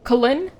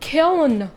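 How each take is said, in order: First: The word is said with two syllables. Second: The word is said with one syllable. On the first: The speaker calls it wrong. "How do you say Killin?" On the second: The speaker calls it right. "One syllable. Kill with an N at the end"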